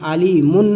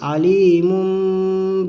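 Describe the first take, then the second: First: The word ends with a clear n sound. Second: The word ends with a nasal m sound. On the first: The speaker calls it wrong. "नहीं पढ़ेंगे" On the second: The speaker calls it right. "क्या पढ़ेंगे?"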